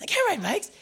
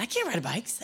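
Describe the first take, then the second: First: Much higher, pleading denial; refusing the little brother's offer, in a high pitch; high panicked protest. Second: Said in the usual way. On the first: Retold or imitated. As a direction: squeak it out in alarm. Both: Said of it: "and I said".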